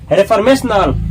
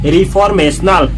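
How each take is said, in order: First: The first syllable sounds like 'ray'. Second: The first syllable sounds like 'ree'. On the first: The speaker calls it wrong. "रेफॉर्मेशनल गलत" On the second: The speaker calls it right. "इसको पढ़ेंगे रिफॉर्मेशनल"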